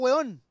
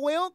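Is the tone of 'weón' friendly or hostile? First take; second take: hostile; friendly. First: It is said in a harsh, dismissive tone. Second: It is said in a warm, friendly tone. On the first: The speaker is telling someone off. "Es como diferente el tono" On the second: The speaker is greeting a friend. "Es como feliz, así es como bien, es como amigo"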